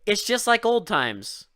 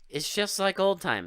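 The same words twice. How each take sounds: First: It is said with lively enthusiasm. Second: It is said flatly, without enthusiasm.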